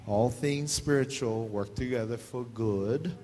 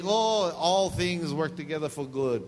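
First: Slow corrected reading. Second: Mock cheerful misreading. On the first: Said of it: "in spiritual speak". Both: Shown as a demonstration.

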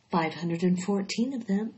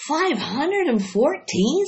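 First: Said in the usual way. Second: Higher, louder, slow amazed question; astonished. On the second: Acted. Wilbur hears the number of eggs, amazed. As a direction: gasp out the number in disbelief.

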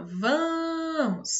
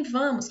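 First: "vamos" called with a long-held first syllable, VAAA-mos; calling out, VAMOS drawn out. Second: Said in the usual way. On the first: Shown as a demonstration. Teacher shows pupils the stressed syllable, calling "vamos" with VA held long. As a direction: stretch the VA of "vamos" as if calling someone. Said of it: "aquela em que você mais se demorou". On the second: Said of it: "quando você chama vamos".

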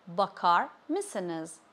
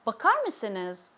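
First: Slow "bakar", pause, then "mısınız"; slowed word by word. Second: Said in the usual way. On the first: Shown as a demonstration. Teacher modelling "bakar mısınız" for learners, slowly word by word. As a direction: separate "bakar" from "mısınız", taking each slowly.

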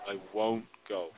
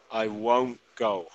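First: Soft repeat. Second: Slow model. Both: Shown as a demonstration. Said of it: "escuchar la pronunciación".

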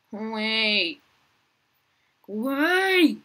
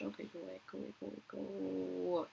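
First: Building yell. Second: Much softer, repeating go away under the breath; murmured shoo. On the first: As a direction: go away then a higher, much louder Go away!. Shooing a player, rising to yell. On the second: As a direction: quietly shoo them off, almost to yourself. Shooing a player away, murmured. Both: Real, not acted.

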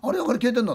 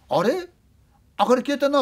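First: High, wondering "明かり消えてんな", raised pitch; puzzled again. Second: High, startled "あれ？ 明かり消えてんな", much higher pitch; puzzled question as the lights go out; puzzled director. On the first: Storyteller repeating the director's line, puzzled and high. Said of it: "って。". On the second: Director noticing the lights gone, startled and high. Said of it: "って言ったんだ。 ディレクターが". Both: Retold or imitated.

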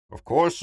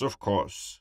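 First: First "course" jumps high and rises; bright eager "Of course" lifting at the end; eager yes. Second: Said in the usual way. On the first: Acted. Carsten eagerly answering Emmett's breakfast offer, rising.

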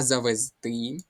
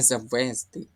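First: "завезти" stressed on the final "ти"; correct stress. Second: "завезти" stressed on the middle syllable, "ве"; wrong stress. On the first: Teacher corrects the test's mistake, final-syllable stress on "завезти". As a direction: say "завезти" as завезТИ, leaning on the last syllable. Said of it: "а завезти". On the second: Teacher shows students the mistaken stress, on the middle syllable of "завезти". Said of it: "Тут є не завезти". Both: Shown as a demonstration.

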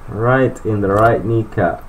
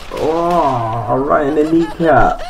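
First: Said in the usual way. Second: High, pained cry at the hit; a sudden high yelp as he's shot; yelp of surprise. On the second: Real, not acted. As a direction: shot in the knee, cries out high. Game character shot in knee.

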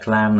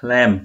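First: "clam" said like "klahm"; clam with A vowel. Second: "Clam" said like "klem"; short e sound in "Clam"; clam with E vowel. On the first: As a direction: give "clam" a broad ah vowel. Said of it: "Còn cái chữ này là clam nè". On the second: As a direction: give "Clam" an open e vowel. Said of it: "chữ E đúng không". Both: Shown as a demonstration.

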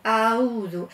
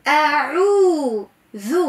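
First: أعوذ with the ain dropped, said as auzu; lazy أعوذ without ain; wrong pronunciation. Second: أعوذ slowly with a strong ain from the throat; deliberate أعوذ, ain fully voiced; clear ain. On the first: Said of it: "يقراو عنا أعوذ". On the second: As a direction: stretch أعوذ and make the ain heard. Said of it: "اسمع مليح". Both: Shown as a demonstration.

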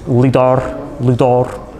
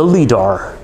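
First: Lidar in a mock Swedish accent, "LEE-dah". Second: Said in the usual way. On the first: Shown as a demonstration. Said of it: "saying lidar with a Swedish accent". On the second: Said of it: "I'm going to try saying lidar".

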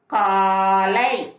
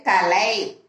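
First: காலை slowly, "aa" held long; long vowel. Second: கலை with a short "a"; short vowel. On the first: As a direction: stretch the first vowel of காலை. (காலை நெடிலாக, நீட்டி) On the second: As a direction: keep the first vowel of கலை brief. (கலை குறிலாக, குறுக்கி) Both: Shown as a demonstration. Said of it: "துணைக்கால் போட்டு".

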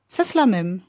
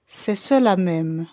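First: Parlé trop vite. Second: Lent, mot par mot; répéter posément pour être compris; plus lentement. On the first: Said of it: "J'avais parlé trop vite". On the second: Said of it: "répétai-je plus lentement". (redire lentement pour se faire comprendre) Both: Acted.

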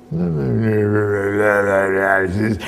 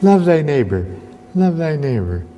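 First: Low, very slow garbled drone; slurred distortion. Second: Said in the usual way. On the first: Acted. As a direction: let the words melt into monstrous mush. Saying degrades into a monstrous thing.

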